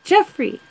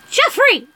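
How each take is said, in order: First: "Jeffrey." pitched high with a falling, chiding end; high "Jeffrey." dropping at the end; scolding name. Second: High sharp call of the name; "Jeffrey!" called out high and long. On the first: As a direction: call Jeffrey again with a knowing fall. Aunt repeats name, scolding. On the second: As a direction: shout Jeffrey across the house, pitched way up. Aunt calls out nephew's name. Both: Retold or imitated.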